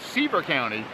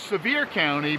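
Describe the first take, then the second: First: The name is said like the surname Seaver. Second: The name is said in its standard local form. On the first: This is a personal pronunciation matching the spelling. "I now pronounce it Seaver County" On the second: This is the official local pronunciation. "It's actually pronounced Sevier County"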